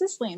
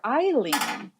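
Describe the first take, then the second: First: The name is said with an s sound. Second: The name is said without an s sound. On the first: The author says the name this way. The speaker calls it right. "no, it's Isling" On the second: Someone else says the name this way. The speaker calls it wrong. "my editor called her Eileen"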